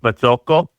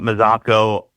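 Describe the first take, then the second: First: The name has an Italian pronunciation. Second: The name has an Americanized pronunciation. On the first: This is the original form from the old country. "in Italy, it's pronounced Mazzocco" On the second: This is the form the family adopted in America. "we Americanized it"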